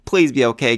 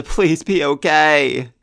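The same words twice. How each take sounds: First: Said in the usual way. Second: Slow, drawn-out heartfelt plea; a real plea that he survives; slow pleading. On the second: Real, not acted.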